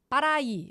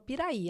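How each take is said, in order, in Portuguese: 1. A primeira vogal é um som de a. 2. A primeira vogal é um som de i. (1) "ela, Paraí" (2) "eu falava Piraí"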